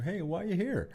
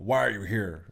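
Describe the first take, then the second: First: It is asked in a friendly, curious tone. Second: It is asked in a hostile, confrontational tone.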